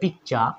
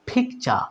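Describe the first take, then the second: First: The p is plain, without a puff of air. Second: The p has a strong puff of air. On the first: The speaker calls it wrong. "আগে কি বলতাম পিকচার অথবা পিকচা" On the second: The speaker calls it right. "এটাকে আমরা কি বলবো ফিকচা"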